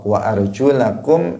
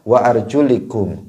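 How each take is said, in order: First: The vowel after the L is 'a'. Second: The vowel after the L is 'i'. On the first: The feet are joined to the washed parts. "dibaca nasab" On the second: The feet are joined to the wiped head. "dibaca kasroh pada lamnya"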